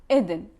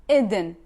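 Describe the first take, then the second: The two takes are said the same way.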